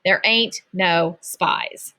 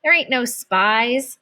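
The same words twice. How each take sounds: First: Slow, drawn-out taunt; teasing sing-song repeat. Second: Scoffing. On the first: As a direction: stretch ain't out to rub it in. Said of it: "He tossed a gummy bear". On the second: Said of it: "She's joking with you". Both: Acted.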